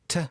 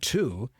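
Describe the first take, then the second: First: The word shrinks to a soft t sound. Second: The word has a full, clear vowel. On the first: "it's usually a soft t" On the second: "The word to is rarely to"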